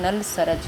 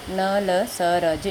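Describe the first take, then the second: First: Said in the usual way. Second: Slow, separated sounds in न ल स र ज; letter by letter. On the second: Shown as a demonstration. Teacher repeating letters for pupils to learn, letter by letter. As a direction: sound out न, ल, स, र, ज singly with gaps. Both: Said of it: "इसको आप ऐसे भी".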